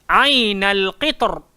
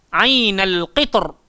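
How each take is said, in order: No difference in how they are said.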